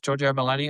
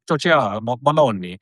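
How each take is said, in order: First: The name is said in a plain English accent. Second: The name is said in an Italian accent.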